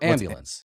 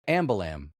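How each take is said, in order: First: The word ends in an nce sound. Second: The word ends in an m sound. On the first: The speaker calls it right. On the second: The speaker calls it wrong.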